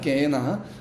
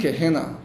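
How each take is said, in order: First: It is said with Greek pronunciation. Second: It is said with English pronunciation. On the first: "제가 지금 헬라어로 발음을 그냥 합니다" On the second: "그리고 영어로는"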